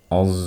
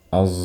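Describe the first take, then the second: No difference in how they are said.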